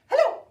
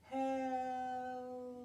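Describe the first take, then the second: First: It is said fast. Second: It is said slowly.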